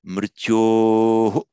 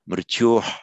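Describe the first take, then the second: First: The breath is followed by an echoed vowel. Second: It ends with a plain puff of breath. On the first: "with repeating the vowel after it" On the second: "with a sound"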